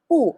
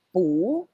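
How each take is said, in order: First: The pitch falls sharply on the syllable. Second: The pitch rises on the syllable. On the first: "fourth intonation. It's like you're mad" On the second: "Pu is in second intonation. That's why para kang nagtatanong"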